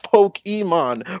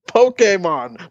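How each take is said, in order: First: The middle syllable is not said as 'kay'. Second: The middle syllable is said as 'kay'. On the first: The speaker calls it wrong. "not Pokemon" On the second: The speaker calls it right. "what the freaking comma above the e means"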